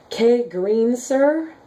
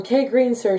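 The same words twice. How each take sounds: First: "K Green Sir" sounded out slowly, higher, with a questioning rise; unsure pronunciation. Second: Said in the usual way. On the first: Shown as a demonstration. Reading a commenter's name she can't pronounce, slow and unsure. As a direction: feel your way through "K Green Sir" slowly, not sure of it. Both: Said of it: "I don't know how you say that".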